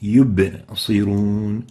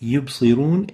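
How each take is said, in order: First: The b ends with an echoing bounce. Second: The b is flat with no echoing bounce. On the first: The speaker calls it right. "The right way to say it" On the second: The speaker calls it wrong. "is not proper"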